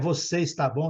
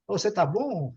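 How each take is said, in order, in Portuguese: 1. Está é dito por extenso, com duas sílabas. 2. Está é reduzido a uma única sílaba.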